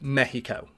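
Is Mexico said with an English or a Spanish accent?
Spanish. It is said with a put-on Spanish accent. "the mock accent of someone from that place"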